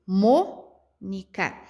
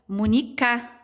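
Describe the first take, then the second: First: The stress falls on the first syllable. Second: The stress falls on the last syllable. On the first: The speaker calls it right. "o mo é a palavra, a sílaba tônica mais forte" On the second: The speaker calls it wrong. "Será que é o K? ... Também não combinaria"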